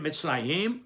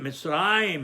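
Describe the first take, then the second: First: Mitzrayim with the final YIM stressed and rising; stress on last syllable. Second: Mitzrayim stressed on RA, falling after; stress on next-to-last syllable. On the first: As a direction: shift the stress to the end of Mitzrayim, mitz-ra-YIM. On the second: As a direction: hold the RA in Mitzrayim, mitz-RA-yim. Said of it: "On the syllable before the last". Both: Shown as a demonstration.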